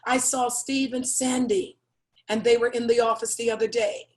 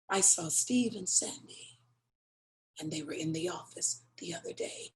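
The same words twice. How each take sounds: First: It is said in a plain, neutral tone. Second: It is said in a knowing, suggestive tone. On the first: Nothing unusual happened. "you're not going to think anything of it" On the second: Something improper was going on. "I'm looking right at you and say"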